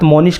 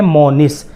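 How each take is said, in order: First: The name ends with an 'sh' sound. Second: The name ends with an 's' sound. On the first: The speaker calls it wrong. "बड़े शीन के साथ" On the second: The speaker calls it right. "सही तलफ़ुज़ छोटे सीन के साथ है"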